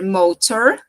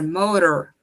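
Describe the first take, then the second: First: The T is pronounced strongly and clearly. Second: The T is pronounced softly and lightly. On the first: "esse T, ele pode ser bem pesado, bem marcado" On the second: "ou ele pode ser mais leve"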